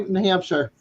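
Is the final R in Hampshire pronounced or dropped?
pronounced. The final R sound is pronounced. "we don't say New Hampshire"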